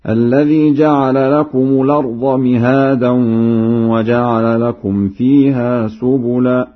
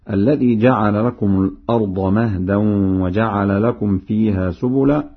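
First: Raised chant, "مهادا" with i and long aa; Warsh recitation. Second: Said in the usual way. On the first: Shown as a demonstration. Teacher demonstrates Warsh's reading, chanting "مهادا" with long aa. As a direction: recite "مهادا" as mihaadan, higher and measured. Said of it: "وفتح الهاء وألف بعدها هكذا". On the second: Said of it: "بكسر الميم".

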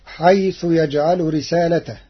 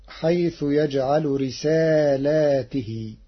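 First: رسالته said risaalatahu, singular; recited without the second alif; Hafs reading. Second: رسالاته said risaalaatihi with long aa and ti; slow plural رسالاته, kasra on ta; Warsh reading. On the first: Teacher recites the singular first. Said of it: "قرأ ورش كلمة رسالته". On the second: Teacher recites Warsh's plural reading. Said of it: "بإثبات ألف بعد اللام". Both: Shown as a demonstration.

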